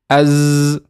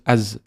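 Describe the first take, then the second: First: The s sound is held out long. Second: The s sound is short and quick. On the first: "I'm exaggerating the uh, the length just so you can hear as" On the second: "Then when you start reading, just as"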